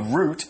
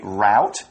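First: It is said in a British accent. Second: It is said in an American accent.

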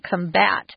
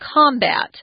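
First: The stress is on the second syllable. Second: The stress is on the first syllable. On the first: It is used as a verb. "If it's a verb, it's on the second" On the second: It is used as a noun. "If it's a noun, it's combat. So the emphasis is on the first syllable"

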